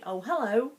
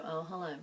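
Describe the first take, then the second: First: High, loud, cheery hello; an upbeat rising hello; bright greeting. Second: A dull, reluctant hello; flat greeting. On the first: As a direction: greet them with delight. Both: Shown as a demonstration. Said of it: "the tone actually infers something completely different".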